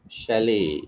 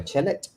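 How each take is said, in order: First: "Chalet" as shal-ay with sh, no T; right sh sound. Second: "chalet" with a hard ch and the T said; wrong ch sound. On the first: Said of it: "it's not ch, it's sh". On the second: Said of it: "Kenapa bukan chalet?". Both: Shown as a demonstration.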